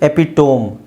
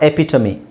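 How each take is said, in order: First: It ends in 'tome' with no final vowel. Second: It ends in 'tuh-mee' with a final vowel. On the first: The speaker calls it wrong. "ಇದನ್ನ ಹೆಂಗೆ ಓದ್ತಾರೆ?" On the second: The speaker calls it right. "ಇದರ ಸರಿಯಾದ ಉಚ್ಚಾರಣೆ"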